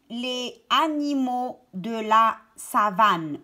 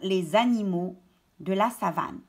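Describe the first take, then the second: First: The s of les is not linked. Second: The s of les links as z.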